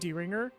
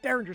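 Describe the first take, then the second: First: The word begins with a long 'dee' sound. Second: The word begins with a short 'der' sound. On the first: The speaker calls it wrong. "the fucking uh, Trigun pronunciation, where Millie literally says uh" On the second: The speaker calls it right. "Derringer, sorry"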